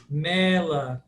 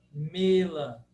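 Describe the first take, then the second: First: Mela with an open E. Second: Mela with a closed E; closed 'e' vowel in Mela. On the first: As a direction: say 'MEH-la' for Mela. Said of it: "Nós abrimos esse E". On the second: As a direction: say 'MAY-la' for Mela. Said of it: "sempre fechado". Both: Shown as a demonstration.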